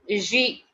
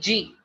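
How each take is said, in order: First: The letter is said with a soft French sound. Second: The letter is said like the g in Hanji. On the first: The speaker calls it right. "the pronunciation of alphabet J in French is like J" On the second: The speaker calls it wrong. "Nobody will pronounce it like G, G. G is wrong"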